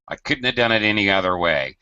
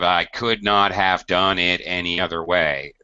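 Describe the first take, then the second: First: Could not is contracted to couldn't. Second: Could not is said as two full words. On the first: The speaker calls it right. "using contractions" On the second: The speaker calls it wrong. "instead of"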